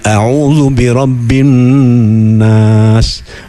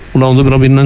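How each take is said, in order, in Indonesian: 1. Dibacanya pelan, setiap hurufnya jelas. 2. Dibacanya cepat, hurufnya tidak jelas. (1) "Nah kan enak dirungokno itu ya" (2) "gak jelas itu"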